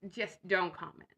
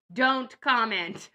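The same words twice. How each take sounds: First: Said in the usual way. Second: Slow, loud punch on don't; emphatic warning. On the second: Acted. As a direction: drag out don't comment firmly. Joking warning to would-be commenters.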